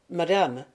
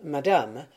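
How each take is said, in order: First: Through clenched teeth. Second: Said in the usual way. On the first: A narrator's reading. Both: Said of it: "les dents serrées".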